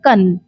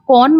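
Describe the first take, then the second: First: The vowel sounds like 'uh' as in 'cut'. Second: The vowel sounds like 'aw' as in 'caught'. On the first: The speaker calls it right. "इसकी pronunciation होती है कन" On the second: The speaker calls it wrong. "इसे आप कौन मत बोलिएगा"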